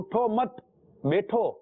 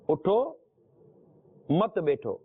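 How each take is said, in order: First: There is no pause after the first word. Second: There is a pause after the first word.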